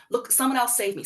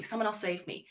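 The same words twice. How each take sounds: First: Higher, helpless call for rescue; pleading child. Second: Softer, giving up on the call for help; fading plea. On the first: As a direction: beg someone to save you. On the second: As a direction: let the plea die away quietly. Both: Retold or imitated. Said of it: "so quickly look externally for help".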